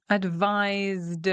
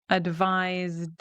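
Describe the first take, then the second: No difference in how they are said.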